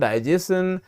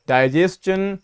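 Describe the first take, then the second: First: The middle sound is said like 'sh'. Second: The middle sound is said like 'ch'. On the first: The speaker calls it wrong. "ना कि" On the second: The speaker calls it right. "ये बन जाता है चा"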